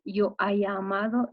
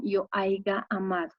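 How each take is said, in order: First: Said in the usual way. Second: "haiga" said with a g before the final a; nonstandard "haiga". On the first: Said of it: "en vez de decir". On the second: Shown as a demonstration. Teacher showing students the common incorrect form, nonstandard "haiga". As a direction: say "haiga", AI-ga, in place of "haya".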